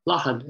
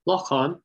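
First: Lochan with a short, weak second syllable; common local pronunciation. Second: Lochan with a long second vowel, "lock-awn"; slow, careful Lochan, both syllables full; full-form pronunciation. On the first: Lecturer showing the commonest Westmeath form, local pronunciation. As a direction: Lochan said like "LAH-hun". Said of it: "most common pronunciation all over Westmeath". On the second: Lecturer contrasting forms of the word for pond, careful pronunciation. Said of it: "most common pronunciation". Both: Shown as a demonstration.

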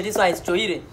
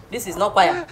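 First: "choire" said as cho-ee-reh; spell-read "choire" with a ch; mispronounced choire. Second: Said in the usual way. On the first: Shown as a demonstration. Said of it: "I'm only telling you this one is choire".

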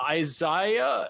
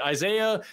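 First: "Isaiah" with middle syllable like "eye": eye-ZYE-uh; unsure pronunciation. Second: "Isaiah" with middle syllable like "ay": eye-ZAY-uh; corrected pronunciation. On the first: Host guesses at a donor's name, "Isaiah" as eye-ZYE-uh. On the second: Host corrects a donor's name, "Isaiah" as eye-ZAY-uh. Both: Real, not acted. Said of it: "I don't know how to read this".

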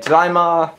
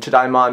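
First: "Tadaima." said ta-dai-ma, raised; "Tadaima." lifted, Japanese style; Japanese word. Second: Said in the usual way. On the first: Shown as a demonstration. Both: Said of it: "Tadaima" meaning".

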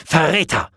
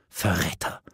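First: Higher, sharper cry of 'traitor'; furious exclamation, voice jumping up; burst-out accusation. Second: Low, hushed 'traitor'; stunned, quiet indictment; choked-out accusation. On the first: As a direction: thrust the word out in outrage. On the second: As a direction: force it out under the breath, aghast. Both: A narrator's reading. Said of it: "stieß sie hervor".

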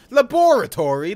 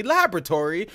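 First: Laboratory as la-BOR-a-tory, stress on the second syllable; British way. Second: Laboratory as LAB-ra-tory, stress on the first syllable; American way. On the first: Streamer comparing accents for chat, la-BOR-a-tory. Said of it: "No, maybe it's not Europeans". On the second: Streamer comparing accents for chat, LAB-ra-tory. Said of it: "I think N A people say laboratory". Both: Shown as a demonstration.

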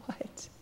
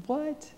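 First: Hushed disbelief; breath-only astonished question; stunned whisper. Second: Very high, squeaked disbelief; high-voiced amazed question; incredulous. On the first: Acted. Stunned reaction to Jesus's promise. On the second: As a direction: jump the pitch way up in astonishment. Disbelief repeated, much higher.

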